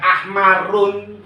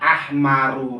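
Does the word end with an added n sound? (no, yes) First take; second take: yes; no. First: The word ends with an added n sound. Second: The word ends on a vowel, no n. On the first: The speaker calls it wrong. "tidak dibaca ahmarun" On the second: The speaker calls it right. "tapi dibaca ahmaru rofaknya"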